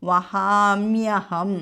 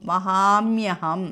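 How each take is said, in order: Both takes have the same delivery.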